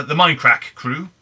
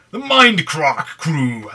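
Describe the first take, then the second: First: Said in the usual way. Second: Drawn-out "Mindcrack" with a long ah in crack; exaggerated pronunciation. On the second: Shown as a demonstration. Vlogger stumbling over a channel name, hammed-up "Mindcrack" with long ah. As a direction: stretch "Mindcrack" slowly and louder, crack as "crahk". Playfully overdoes the name, then corrects.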